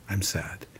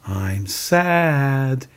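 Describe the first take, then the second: First: Very quiet, low reluctant echo; imitating a hesitant, subdued repeat; Lloyd. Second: Modelling a feeling to be repeated; sustained, clearly voiced teaching example; Mister Rogers. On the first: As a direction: repeat it back under your breath. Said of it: "And Lloyd goes". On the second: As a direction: say it openly for someone to copy. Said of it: "He says to, uh, Lloyd, he goes".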